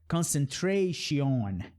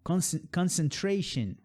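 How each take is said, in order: First: The unstressed vowels are full and clear. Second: The unstressed vowels are soft and reduced. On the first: The speaker calls it wrong. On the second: The speaker calls it right.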